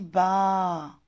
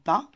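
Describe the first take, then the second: First: The vowel is drawn out long. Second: The vowel is said short. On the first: "ici c'est long"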